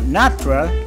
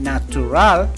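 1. La vocal del medio se omite. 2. La vocal del medio se pronuncia completa. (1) "sino natural, sin la U" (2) "no se dice natural"

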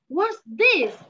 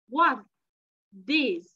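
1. Cụm từ được nói với tốc độ nhanh hơn. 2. Cụm từ được nói chậm và rõ ràng. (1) "bây giờ mình tăng tốc độ hơn một xíu nha" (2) "Mình đọc chậm thôi"

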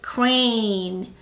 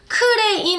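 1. 영어 소리와 음절로 말합니다. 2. 한국식 음절과 모음으로 말합니다. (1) "크레인 아니고 crane" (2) "크레인 아니고"

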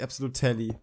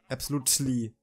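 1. Der T-Laut wird deutlich ausgesprochen. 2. Der T-Laut ist fast stumm. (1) "Nicht absolutely. Wie es geschrieben wird" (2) "das T ja relativ stumm spricht, so absolutely"

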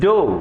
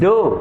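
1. ഈ വാക്ക് 'oh' സ്വരത്തോടെയാണ് പറയുന്നത്. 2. ഈ വാക്ക് 'oh' സ്വരത്തോടെയാണ് പറയുന്നത്.

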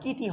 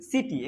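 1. শব্দটি K ধ্বনি দিয়ে শুরু হয়। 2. শব্দটি S ধ্বনি দিয়ে শুরু হয়। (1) "এখানে সির উচ্চারণ ক হবে না, কিটি হবে না" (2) "এখানে সির উচ্চারণ দন্তেশ্ব হবে"

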